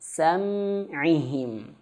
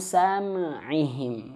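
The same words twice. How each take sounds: First: The m sound is pronounced clearly. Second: The m sound is pronounced unclearly. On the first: The speaker calls it right. "Mimnya jelas" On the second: The speaker calls it wrong.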